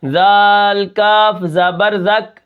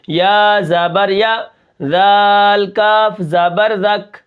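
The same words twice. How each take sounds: First: Spelling with the breath pushed out; breath let out. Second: Rushed wrong spelling. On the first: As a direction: push the breath out on each letter. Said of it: "سانس ہم نکال کے". (سانس نکال کر ہجے) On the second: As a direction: run the letters without a careful pause. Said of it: "اگر اس کے اوپر میں احتیاط نہ کروں". (بے احتیاطی سے ہجے) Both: Shown as a demonstration.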